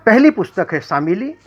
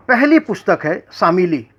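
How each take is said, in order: Both takes have the same delivery.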